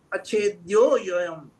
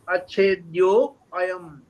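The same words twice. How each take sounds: First: The words are read quickly and run together. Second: The words are read slowly and kept apart. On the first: "If you read quickly" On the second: "if you slowly read"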